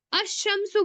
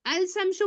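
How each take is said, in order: First: अशमसु with the lam dropped and a doubled sh; teacher models अशमसु with the lam silent; assimilated article. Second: अल शमसु with a clear l before शमसु; teacher asks if अल शमसु keeps the lam; wrong, lam sounded. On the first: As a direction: say अशमसु as ash-shamsu, no l sound. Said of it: "अल नहीं पढ़ेंगे". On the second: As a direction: pronounce अल शमसु with the lam fully said. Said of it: "आप लाम को पढ़ते हैं क्या?". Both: Shown as a demonstration.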